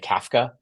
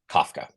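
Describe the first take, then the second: First: It is said with a British-style English pronunciation. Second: It is said with an American English pronunciation. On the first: "if you're like an Aussie or Kiwi or a Brit, uh, they tend to say" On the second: "you are an American speaking standard spoken American English"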